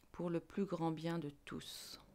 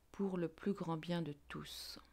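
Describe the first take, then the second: Both takes have the same delivery.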